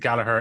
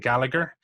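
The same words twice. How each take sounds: First: The name is said the Irish way. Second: The name is said the British/American way. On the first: "here in Ireland, yeah, we pronounce it Gallagher" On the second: "In the U K and in the U S, the, you say Gallagher"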